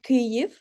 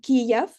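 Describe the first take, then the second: First: The name uses the Ukrainian pronunciation. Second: The name uses the Russian pronunciation. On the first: The speaker calls it right. "Kyiv is the Ukrainian pronunciation" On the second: The speaker calls it wrong. "Kiev is a Russian pronunciation"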